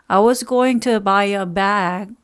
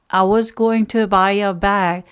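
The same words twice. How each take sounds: Both takes have the same delivery.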